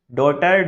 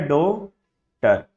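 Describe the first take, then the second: First: Said in the usual way. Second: डॉटर said very slowly, डॉ and टर pulled apart; slow teacher demo of डॉटर, syllable by syllable; split syllables. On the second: Shown as a demonstration. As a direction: stretch डॉटर into two separate parts. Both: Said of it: "डॉटर की sound एक साथ नहीं आ रही".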